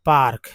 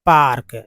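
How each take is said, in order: First: Said in the usual way. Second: पार्क said slowly and louder, long आ and a rolled र; teacher models पार्क for Hindi-speaking learners, loud and clear; clear pronunciation demo. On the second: Shown as a demonstration. Demonstrating पार्क with a full, open आ and a distinct final क. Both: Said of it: "जैसे बोलते होंगे".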